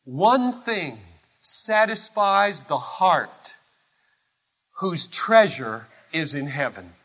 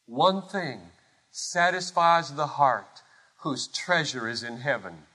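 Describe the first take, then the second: First: ONE drawn out and pitched up, then falling away; deliberate declaration. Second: Lower, softer echo, sinking to the end; hushed repetition. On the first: Preacher on the heart whose treasure is heaven, deliberate declaration. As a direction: slowly set out "One thing", weight on ONE. Preacher's first saying of repeated line. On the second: Preacher repeating it for the congregation, hushed and solemn. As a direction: let "One thing satisfies" settle quietly. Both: Real, not acted.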